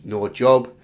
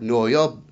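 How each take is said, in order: First: Said in the usual way. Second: Spanish-accented "No yob". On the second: Shown as a demonstration. Host explains what Mil Mascaras meant by "No yob". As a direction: say "No yob" as Mexican Mil Mascaras did, "yob" for job. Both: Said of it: "means no job".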